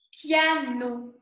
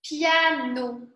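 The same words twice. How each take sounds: The two takes are said the same way.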